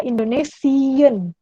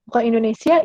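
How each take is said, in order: First: "Indonesian" slow, ending in a clear -sian; German pronunciation. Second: Said in the usual way. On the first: Shown as a demonstration. Teacher to students correcting the word, slow and clear. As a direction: say "Indonesian" slowly as the right form.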